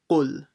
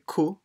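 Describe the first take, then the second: First: The first consonant is a deep throat q sound. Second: The first consonant is a plain k sound. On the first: The speaker calls it right. "it's qul" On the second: The speaker calls it wrong. "don't say ku"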